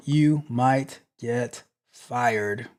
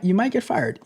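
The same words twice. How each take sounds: First: Slow, every word weighed; deliberate slow verdict; slow ominous repeat. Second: Said in the usual way. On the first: Real, not acted. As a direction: let the warning sink in slowly.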